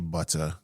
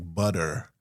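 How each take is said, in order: First: The middle T is a clear, crisp T. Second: The middle T is soft, like a quick D. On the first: "I say butter" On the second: "instead of saying, you know, like butter"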